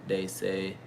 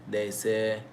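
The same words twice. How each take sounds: No difference in how they are said.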